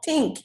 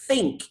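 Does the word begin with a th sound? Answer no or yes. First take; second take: no; yes. First: The first sound is not a th sound. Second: The first sound is a clear th sound. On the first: The speaker calls it wrong. "you don't think" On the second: The speaker calls it right. "you think"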